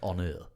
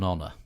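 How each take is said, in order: First: The word has a French pronunciation. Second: The word has an English pronunciation.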